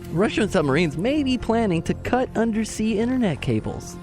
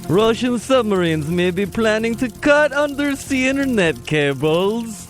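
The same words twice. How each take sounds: First: It is spoken in the speaker's ordinary accent. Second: It is spoken in a put-on Russian accent. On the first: "now say it not in a Russian accent" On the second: "Funkhauser's Russian accent"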